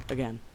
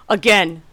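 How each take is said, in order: First: Weary mutter. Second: Louder exasperated cry; frustrated shout. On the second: Streamer dies once more, exasperated shout. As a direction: shout it out in disbelief. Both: Real, not acted. Dying repeatedly to boss.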